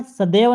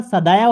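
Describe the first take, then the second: First: सदैव with a plain "ay" vowel, sa-dev; wrong vowel demonstrated. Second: सदैव with an open "a-i" glide, sa-dai-v; correct diphthong. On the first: Teacher shows the rejected word, demonstrating an error. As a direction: say सदैव with one pure vowel. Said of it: "नहीं होता". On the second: Teacher gives the right vowel sign, correcting. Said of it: "आय की मात्रा रहेगी". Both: Shown as a demonstration.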